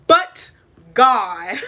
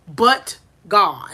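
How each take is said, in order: First: But God said louder through laughter; joyful laughing But God. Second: Said in the usual way. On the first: Shown as a demonstration. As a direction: laugh it out, half crying. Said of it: "That's the end".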